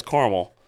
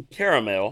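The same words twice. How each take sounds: First: CARAMEL as car-mul; two-syllable caramel. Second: CARAMEL as care-uh-mel; three-syllable caramel. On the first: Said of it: "Brett's saying he says caramel". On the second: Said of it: "You're saying you say caramel". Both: Shown as a demonstration.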